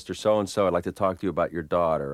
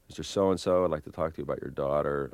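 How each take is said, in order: First: It sounds purposeful, aimed at persuading someone. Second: It sounds tentative, feeling its way without aim.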